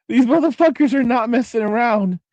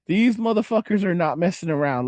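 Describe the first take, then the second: First: Higher-pitched, through a laugh; laughing emphasis. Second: Said in the usual way. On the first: Real, not acted. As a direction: burst it out while laughing. Laughs, then repeats the warning.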